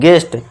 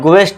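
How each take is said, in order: First: The g goes straight into the vowel. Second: The g is followed by a w-like glide. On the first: The speaker calls it right. "नहीं गेस्ट" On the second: The speaker calls it wrong. "ग्वेस्ट नहीं"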